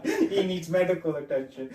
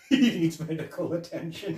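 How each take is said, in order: First: Lightly voiced repeat, laughing; a hint of the deadpan cop; laughing mock-serious delivery; imitating the line again. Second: Lightly voiced, laughing through it; a hint of the cop's dry delivery; mock-serious report, half laughing; imitating the deadpan line. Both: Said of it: "funny how he said that line".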